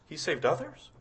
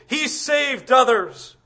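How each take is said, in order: First: Questioning. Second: A hint of a slow sneer; mock him lightly. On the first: Shown as a demonstration. Preacher questioning the mockers' words, softly doubtful. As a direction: question the taunt gently. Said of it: "Did he?". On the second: Preacher imitating the mockers at the cross, lightly sneering. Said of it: "the mockings and the sneerings".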